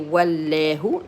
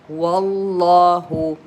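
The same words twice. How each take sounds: First: The 'llah' part is said light and weak. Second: The 'llah' part is said heavy and strong. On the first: The speaker calls it wrong. "You don't say wallahu, no" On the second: The speaker calls it right. "you give it more power"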